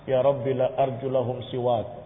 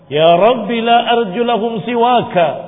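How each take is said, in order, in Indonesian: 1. Kata terakhir berakhir dengan bunyi k saja. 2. Kata terakhir berakhir dengan suku kata ka tambahan. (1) "Enggak begitu bacanya" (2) "pakai alif itu supaya dibaca ka"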